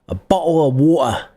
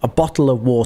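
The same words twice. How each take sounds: First: It is said in a Cockney accent. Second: It is said in a British accent, t clear. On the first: "If you're from London and you speak Cockney, you might say" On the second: "I'm hitting the T. That's my natural accent"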